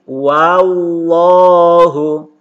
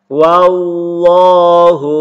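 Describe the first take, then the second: First: The first vowel is open, sounding like 'a'. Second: The first vowel is open, sounding like 'a'.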